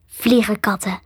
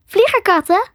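First: "Vliegerkatten" in usual pitch, falling at the end; matter-of-fact confirmation. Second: "Vliegerkatten" high, rising at the end; puzzled question. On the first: Creature confirms to the girl, "Vliegerkatten" as a falling statement. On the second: Girl queries the creature, "Vliegerkatten" as a high rising question. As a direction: ask "Vliegerkatten" in a high girl's voice, pitch lifting. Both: A narrator's reading.

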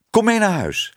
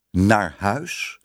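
First: High, eager call; high-pitched, happy summons. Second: Said in the usual way. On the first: A narrator's reading. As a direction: call them along excitedly. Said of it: "riep Tibbe".

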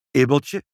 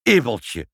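First: Stern father's warning, raised and louder. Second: Loud, indignant scolding call; angry shout. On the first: Father to his tactless child, stern. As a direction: call the child sharply to order. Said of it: "zei vader streng". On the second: Both parents to their rude child, angry. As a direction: exclaim the name in mild outrage. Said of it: "riepen vader en moeder tegelijk woedend". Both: A narrator's reading.

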